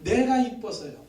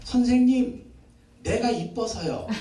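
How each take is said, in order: First: Slow, earnest own confession; the preacher taking the child's words as his own; sincere confession. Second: Put-on slow, sweetly proud little girl; a preacher lightly voicing a little girl; little girl's voice. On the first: Shown as a demonstration. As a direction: say it as your own heartfelt faith. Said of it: "이 표현을 아이가 그렇게 표현한 거예요". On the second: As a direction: say it like a small child who thinks she's pretty. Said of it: "전도사님 딸이 그러더래요".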